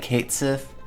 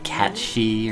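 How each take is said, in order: First: It is read as English 'Kate Sith'. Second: It sounds like one word, 'Catchy'. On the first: "are they gonna say Cait Sith?" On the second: "the way it's supposed to be said, where it's like Catchy"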